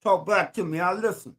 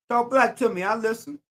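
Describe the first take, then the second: First: Lower, with talk hit hardest; low call-out with "Talk" as the peak; stress on talk. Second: Raised call-out with "black" as the peak; stress on black. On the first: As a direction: lean on the word "talk" in "Talk black to me". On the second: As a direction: punch "black" in "Talk black to me". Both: Shown as a demonstration. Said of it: "slogan said twice, different stress".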